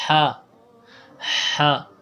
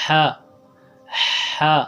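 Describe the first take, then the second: The two takes are said the same way.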